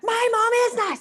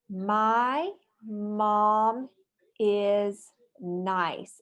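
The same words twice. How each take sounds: First: It is yelled loudly, as an exclamation. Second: It is said calmly, as a plain statement.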